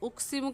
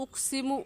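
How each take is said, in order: No difference in how they are said.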